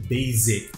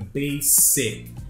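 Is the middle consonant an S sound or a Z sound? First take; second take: Z; S. First: The middle consonant sounds like a z. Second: The middle consonant sounds like an s. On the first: The speaker calls it wrong. "nada de basic" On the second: The speaker calls it right. "ele tem som de S mesmo"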